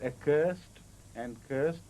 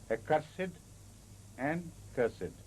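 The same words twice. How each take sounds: First: "accursed" and "cursed" ending in -st; one-syllable ending. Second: "accursed" and "cursed" ending in a separate -sid; sounded -ed ending. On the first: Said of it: "the pronunciation is not". ("accursed" and "cursed" with the e silent) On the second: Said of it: "the pronunciation is not accursed and cursed, but". ("accursed" and "cursed" with -ed as an extra syllable) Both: Shown as a demonstration.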